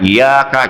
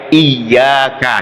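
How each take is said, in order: First: The y sound is short and single. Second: The y sound is held long and doubled. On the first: I keep away from you. The speaker calls it wrong. "jangan iyyaka, jangan salah itu" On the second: Only to you. The speaker calls it right. "dibacanya harus pakai tasdid ya"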